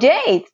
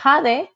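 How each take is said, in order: First: The name is said the English way. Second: The name is said the Spanish way. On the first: This is how people abroad read the spelling. "How you spell that? J-A-D-E. Oh" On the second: This is the name as used at home. "people call me Jade in my country"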